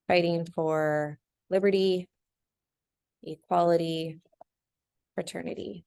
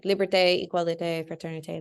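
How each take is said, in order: First: Said in the usual way. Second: Liberté, égalité, fraternité in a light French accent; teacher's playful hint of a French accent. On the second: Shown as a demonstration. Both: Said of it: "Love my French accent right there".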